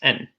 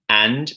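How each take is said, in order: First: The word is reduced to a weak 'n' sound. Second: The word is said with a full vowel. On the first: "pronounced n, n, with a schwa sound" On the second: "The, the strong form of the word is and"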